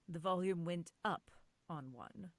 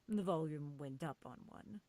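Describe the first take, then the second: First: The word 'up' is hit hard. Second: The word 'up' is only lightly stressed.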